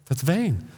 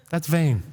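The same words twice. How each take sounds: The two takes are said the same way.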